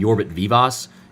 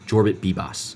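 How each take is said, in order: First: The surname begins with a V sound. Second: The surname begins with a B sound. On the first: The speaker calls it wrong. "I was saying Jorbit Vivas" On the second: The speaker calls it right. "and then it's Bibas, like B E E B A S"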